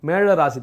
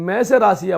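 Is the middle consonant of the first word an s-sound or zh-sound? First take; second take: zh-sound; s-sound. First: The middle consonant is a retroflex zh sound. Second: The middle consonant is a plain s-like sound. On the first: The speaker calls it right. "மேழம் மேழ ராசி தான்" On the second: The speaker calls it wrong. "இந்த மேச ராசி அப்படின்றது கூட தப்பு தான்"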